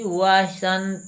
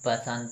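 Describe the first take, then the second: First: The word begins with a v sound. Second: The word begins with a b sound. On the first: The speaker calls it right. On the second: The speaker calls it wrong.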